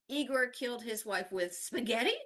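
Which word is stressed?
spaghetti. The word spaghetti carries the main stress. The weapon was spaghetti, not a knife. "not a knife"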